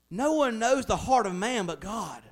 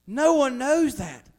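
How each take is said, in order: First: Said in the usual way. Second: "No" hit hard, louder and slow, falling at the end; slow down and land "No one knows that"; emphatic repeat. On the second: Shown as a demonstration. Pastor hammering the point home to the congregation, loud and slow.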